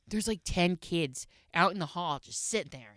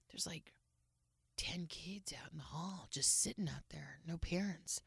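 First: Said in the usual way. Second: Whispered, much softer; hushed whisper. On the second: Retold or imitated. Wife imitating husband reporting kids in the hall, hushed whisper.

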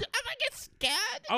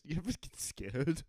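First: Very high, slow, eerie creature voice; a creepy high ghostly drawl; full spooky monster voice; scary voice. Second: A mild attempt at a scary voice; half-hearted spooky voice. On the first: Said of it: "That was a scary voice". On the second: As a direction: try for spooky, barely lands. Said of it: "I meant to say it in a scary voice". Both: Shown as a demonstration.

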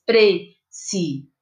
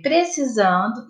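First: "Precisando" broken into separate syllables, pre-ci-san-do. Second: Said in the usual way. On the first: Shown as a demonstration. Teacher showing pupils how to separate syllables, "Precisando" slowly split syllable by syllable. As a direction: say "Precisando" slowly, a gap after each syllable. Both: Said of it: "vai separar as sílabas".

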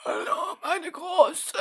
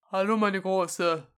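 First: High, quavering dying grandpa voice; dying old man voice. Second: Grandpa voice. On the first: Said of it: "genauso klingen die neunundsechzigjährigen". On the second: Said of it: "deine beste Opa-Stimme". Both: Pretend.

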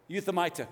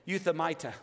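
The two takes are said the same way.

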